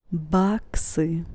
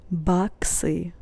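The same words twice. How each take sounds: The two takes are said the same way.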